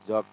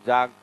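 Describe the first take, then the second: First: The vowel is a rounded 'o' sound. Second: The vowel is an open 'aa' sound. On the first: This is how the speaker's own people say it. "हम इसको तो जॉग बोला जाए" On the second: This is how people in that other region say it. "इसको जाग बोलते ले"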